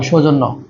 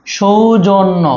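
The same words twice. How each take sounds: First: Said in the usual way. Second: "সৌজন্য" slowly, syllable by syllable; slow sounding-out. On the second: Shown as a demonstration. Teacher dictating a spelling, "সৌজন্য" slowly sounded out. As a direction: stretch out each syllable of "সৌজন্য". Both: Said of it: "জফলা হবে".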